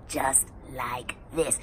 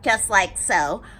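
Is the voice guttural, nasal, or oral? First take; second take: guttural; nasal. First: The voice sounds rough and deep in the throat. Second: The voice resonates through the nose.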